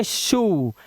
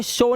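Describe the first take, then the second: First: शू with a long "oo"; OO sound. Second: शो with an "oh" vowel; wrong O sound. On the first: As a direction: draw out शू slowly, falling. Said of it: "इसे पढ़ते शू". (शू में लंबा ऊ खींचकर) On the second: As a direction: misread it as शो, rhyming with go. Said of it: "इसे शो नहीं पढ़ते". (शो, ओ की आवाज से) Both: Shown as a demonstration.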